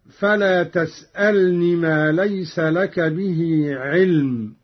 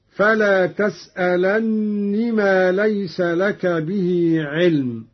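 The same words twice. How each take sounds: First: تسألن said "tas'alni", light n; no doubling in تسألن; single nun. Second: تسألن said "tas'alanni", n held long; doubled nun. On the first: Teacher quoting the verse first, unstressed single nun in تسألن. Verse before Qalun's reading is shown. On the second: Teacher showing Qalun's reading, shadda on the nun of تسألن. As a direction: slowly lean on the humming double n of تسألن. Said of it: "قرأ قالون بتشديد النون". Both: Shown as a demonstration.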